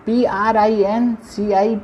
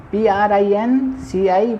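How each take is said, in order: Both takes have the same delivery.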